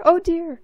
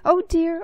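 First: High, loud fretful cry with a falling end; flustered cry. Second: High, loud fretful cry; flustered cry. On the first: Mister Pudding rushing up with the book, even more flustered. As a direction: panic a bit more on the repeat. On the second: Mister Pudding rushing up with the book, flustered. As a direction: fret out loud in a panic. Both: A narrator's reading. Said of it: "he cried".

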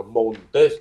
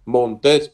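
First: Montes read slowly, said the way many people say it; alternative reading. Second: Montes said once more, crisper and louder; repeated model word. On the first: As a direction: say Montes slowly with a rising end. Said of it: "thì mình đọc là Montes". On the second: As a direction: repeat Montes clearly and firmly. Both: Shown as a demonstration.

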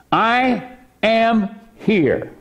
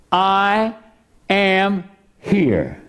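First: I am here. with I stretched and high, then falling; slow, lean on I in I am here; I am here. spoken slowly with the weight on I; stress on I. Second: I, pause, then am stressed and falling; I ... am here. with am hit hard. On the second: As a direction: split I from am here. and punch am. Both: Shown as a demonstration.

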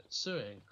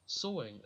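First: "sewing" pronounced with an oo sound, like sue; sewing said "sue-ing". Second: "Sewing" pronounced with an o sound, like sow; sewing said "so-ing". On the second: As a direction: say "Sewing" as so-ing, rhyming with going. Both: Shown as a demonstration. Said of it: "am I saying it wrong?".

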